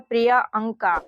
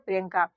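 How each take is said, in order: First: The name splits into two parts, priya and anka. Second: The name runs together as one word, priyanka. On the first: The speaker calls it wrong. "तो ये हो जाता प्रिया अंका" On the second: The speaker calls it right. "इसका सही उच्चारण क्या हो जाएगा प्रियंका"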